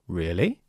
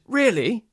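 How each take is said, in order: First: The voice falls slightly and then rises. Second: The voice rises and then falls. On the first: The speaker is unsure about the news. "if I'm not sure ... this slight fall into a rise" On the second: The speaker is excited by the news. "if somebody tells me some news and I'm excited"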